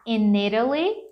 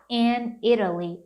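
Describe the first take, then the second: First: In runs straight into Italy with no break. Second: A short pause separates in from Italy. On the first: "conectar e ficar in Italy" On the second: "ou você pode pausar in Italy"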